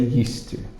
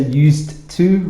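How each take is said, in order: First: The D and T merge into one sound. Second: The D and T are pronounced separately. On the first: "so we put it together and say used to" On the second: "It doesn't sound terrible to say used to, but it's difficult to say"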